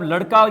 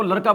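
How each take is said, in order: First: Said in the usual way. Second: लड़का pronounced "laraka". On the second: Retold or imitated. Teacher citing the pupil's habit, लड़का with r. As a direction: tap an r in लड़का instead of ड़. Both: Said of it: "ड के स्थान पर र".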